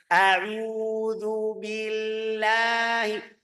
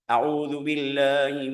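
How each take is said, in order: First: It is recited slowly and carefully. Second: It is recited somewhat faster.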